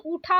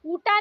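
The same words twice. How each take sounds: First: ऊठा with aspirated th; breath puff on t of ऊठा; correct pronunciation. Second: ऊटा with plain hard t; no breath puff in ऊटा; wrong pronunciation. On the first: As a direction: say ऊठा as "ootha". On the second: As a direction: say ऊटा as "oota". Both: Shown as a demonstration. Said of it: "ऊटा नहीं".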